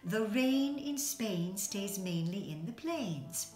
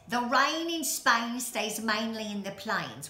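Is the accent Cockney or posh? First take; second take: posh; Cockney. First: It is spoken in a refined posh accent. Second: It is spoken in a Cockney accent. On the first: The speaker has been taught to speak like the upper class. "he teaches her during that famous song to speak properly" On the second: The speaker is a poor flower seller. "she talks like this, a Cockney accent"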